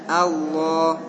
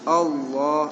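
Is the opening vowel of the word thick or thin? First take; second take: thin; thick. First: The opening vowel is thin and light. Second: The opening vowel is thick, close to O. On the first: The speaker calls it right. "A-nya istifal, hamzah itu istifal" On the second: The speaker calls it wrong. "jangan Allah"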